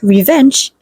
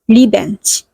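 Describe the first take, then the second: First: It is said with standard English sounds. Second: It is said with Korean-accented sounds.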